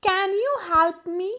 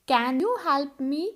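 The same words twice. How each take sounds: First: Drawn-out teaching question with a lift; teacher stressing the can question; slow, higher, louder model question. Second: Calm drawn-out repeat; teacher repeating for students; slow model question. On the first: (धीमा और ऊँचा सवाल) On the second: (धीमा दोहराया सवाल) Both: Shown as a demonstration. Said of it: "वहाँ पे आप can के साथ सेंटेंस शुरू करोगे।".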